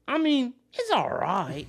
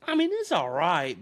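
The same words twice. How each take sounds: First: Much higher, slow, drawn-out, louder mock voice; exaggerated impression of an unimpressed eater; imitating the meme guy. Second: Slow, drawn-out, higher mock voice; mild impression of an unimpressed eater; imitating the meme guy. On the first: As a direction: ham up the grudging verdict. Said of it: "It's the meme where, he's just, like, in his car". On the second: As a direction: lazily hand down a verdict on the sandwich. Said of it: "that one meme where he has the sandwich, he's like".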